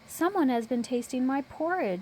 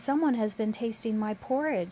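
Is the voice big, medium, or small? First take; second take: small; medium. First: It is said in a small, high voice. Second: It is said in a medium-sized voice. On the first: "in a little baby voice" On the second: "in a middle-sized voice"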